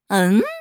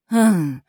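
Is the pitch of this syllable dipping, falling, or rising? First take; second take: rising; dipping. First: The pitch rises from mid to high. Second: The pitch dips low and then rises. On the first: It expresses a question. "第一种呢是发第二声嗯，就是表疑问嘛" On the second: It expresses surprise or disapproval. "它还能读三声嗯，就表出乎意料或是不以为然"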